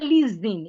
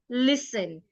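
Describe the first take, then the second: First: The s is voiced like a z. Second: The s keeps a clear s sound. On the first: The speaker calls it wrong. "The S in that word does not sound like Z" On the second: The speaker calls it right. "It retains its S sound"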